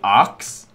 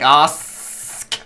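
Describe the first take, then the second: First: The s sound comes after the k sound. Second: A strong s sound comes before the k. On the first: "I used to say arcs instead of ask" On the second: "I enunciate the crap out of the S"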